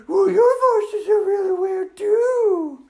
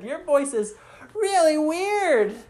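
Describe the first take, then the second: First: Put-on very high, loud, drawn-out girly dragon; weird dragon voice. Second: Lightly voiced kids, raised pitch; kids teasing. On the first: Dragon answers the teasing kids, high weird retort. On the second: Kids remark on the dragon's voice, lightly raised teasing. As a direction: tease in a higher voice. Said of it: "And they said".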